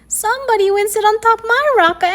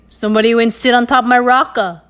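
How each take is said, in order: First: The voice is high and squeaky. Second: The voice is deep and gruff. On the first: "in his high, squeaky voice" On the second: "in his deep, gruff voice"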